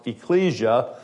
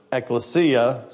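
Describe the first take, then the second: First: "ecclesia" said as ih-KLEE-zhuh; alternative pronunciation. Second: "ekklesia" said slowly as ek-luh-SEE-uh; Greek pronunciation. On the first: Preacher showing the other way to say it, "ecclesia" as ih-KLEE-zhuh. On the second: Preacher giving the Greek word for church, "ekklesia" as ek-luh-SEE-uh. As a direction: say "ekklesia" with the stress late, on SEE. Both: Shown as a demonstration. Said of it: "sometimes pronounced ecclesia".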